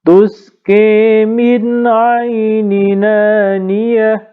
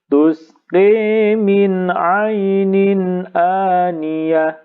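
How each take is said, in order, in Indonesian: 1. Vokal menyambung ke huruf n, tanpa hamzah. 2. Ada hamzah yang jelas sebelum aniyah. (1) "naql dulu" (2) "Sekarang yang tahqiq"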